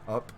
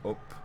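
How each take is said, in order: First: It is said with an American vowel. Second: It is said with a Northern English vowel. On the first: "Up would be an American, American English" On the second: "Northern England English would be up, up, with the schwa"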